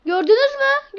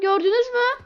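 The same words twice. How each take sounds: First: Excited call to viewers. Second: Crying call to viewers. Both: Real, not acted. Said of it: "Gördünüz mü arkadaşlar".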